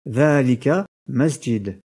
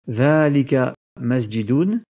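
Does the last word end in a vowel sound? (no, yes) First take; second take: no; yes. First: The last word ends on a bare consonant. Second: The last word ends with an added vowel ending. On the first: The speaker calls it right. "mais plutôt" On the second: The speaker calls it wrong. "on ne dira pas"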